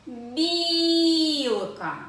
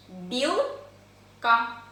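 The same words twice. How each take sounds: First: Long singsong call, "Бі-і-ілка" stretched on the first vowel; higher, louder, as if calling a squirrel over. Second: "Білка" in two separate syllables, pause between; split into syllables. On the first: Teacher showing children how to find stress, calling out drawn-out. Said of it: "Це коли ми покличемо білку". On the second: Teacher counting syllables with hand under chin, word split by a pause. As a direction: break "Білка" cleanly after "Біл". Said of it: "скільки складів". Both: Shown as a demonstration.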